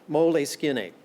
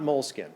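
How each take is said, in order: First: It is said with an Italian pronunciation. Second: It is said as the English word moleskin. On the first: The speaker calls it right. "because it's Italian, if you want to pronounce it right, it's Moleskine" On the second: The speaker calls it wrong. "not moleskin"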